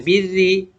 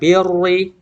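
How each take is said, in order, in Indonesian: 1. Huruf r diucapkan tipis dan ringan. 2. Huruf r diucapkan tebal dan berat. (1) "ra berharokat kasrah"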